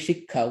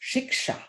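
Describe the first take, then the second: First: The middle sound is a doubled kh. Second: The middle sound is k followed by sh. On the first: This is how Bengali speakers say it. "Amra uchcharon kori shikha. We pronounce it as, as if kha kha together" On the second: This is the original pronunciation, kept by Hindi speakers. "But actually it's shiksha"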